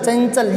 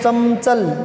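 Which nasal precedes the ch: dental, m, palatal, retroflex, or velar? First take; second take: palatal; m. First: A palatal ny sound comes before the ch. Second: An m sound comes before the ch. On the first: The speaker calls it right. "ये होता है, इसी का पंचम आएगा" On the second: The speaker calls it wrong. "मैं लगाएं पंचम"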